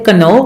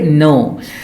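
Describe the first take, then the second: First: A K sound is heard before the N. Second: The word starts directly with an N sound. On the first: The speaker calls it wrong. "we do not say kano" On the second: The speaker calls it right. "we say no"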